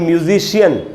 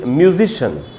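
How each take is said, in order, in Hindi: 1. अंत को दो अक्षरों में बोला जाता है, shee-un। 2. अंत को एक अक्षर में बोला जाता है, shun। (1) "हम लोग बोलते हैं" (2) "बोलना चाहिए"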